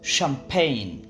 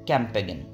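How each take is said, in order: First: The word begins with an sh sound. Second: The word begins with a k sound. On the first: The speaker calls it right. "শব্দগুলোর সঠিক উচ্চারণ" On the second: The speaker calls it wrong. "আপনি হয়তো ভাবছেন"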